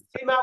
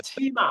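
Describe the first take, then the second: First: Said in the usual way. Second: সীমা with a strong puff of air on the first sound; aspirated Korean syllable. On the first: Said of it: "সীমা বলবেন না". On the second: Shown as a demonstration. Teacher shows students the strong-air সীমা, breathy aspirated start. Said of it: "বাতাসের চাপটা বেশি দেওয়ার চেষ্টা করবেন".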